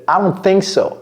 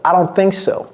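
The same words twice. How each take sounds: Both takes have the same delivery.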